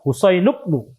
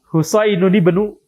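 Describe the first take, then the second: First: Husain runs straight into bnu with no n. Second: Husain ends in -uni, with an n sound linking. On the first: A lightened reading that is easier to say. "Kalau tanpa tanwin jadi mudah" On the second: The full regular reading with nunation. "harusnya begitu"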